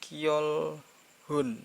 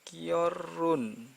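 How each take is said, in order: First: An h sound is pronounced in the middle. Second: The middle h is dropped and the sounds run together. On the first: The speaker calls it wrong. "bukan kiolhun" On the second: The speaker calls it right. "Ini bacanya kiorun"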